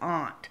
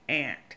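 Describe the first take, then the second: First: The vowel differs from the insect 'ant'. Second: The vowel matches the insect 'ant'. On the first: This is the general way to say it. "the word is aunt" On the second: This is how people say it locally. "where I'm from, we say ant, like the insect"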